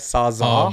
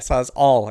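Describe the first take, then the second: First: The word ends without a final L sound. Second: The word ends with a clear L sound. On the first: The speaker calls it wrong. "when guys call the tool the sawzall" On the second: The speaker calls it right. "It ends with L's"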